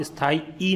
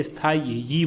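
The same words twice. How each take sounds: First: स्थाई ending in a plain long "ई" vowel; wrong ee ending. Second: स्थाई ending in a glided "यी" sound; yee ending. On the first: Teacher shows students the wrong ending, स्थाई with bare "ई". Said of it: "आप स्थाई ई नहीं बोलते". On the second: Teacher shows students the correct ending, स्थाई with "यी" glide. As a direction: end स्थाई on a clear "यी" glide. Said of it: "स्थाई यी बोलते हैं". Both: Shown as a demonstration.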